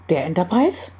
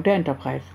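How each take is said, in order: First: ENTERPRISE with a rising question tune; questioning echo. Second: Said in the usual way. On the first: A narrator's reading. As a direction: echo it back as a question, lifting the end of Enterprise. Echoed as a doubting question.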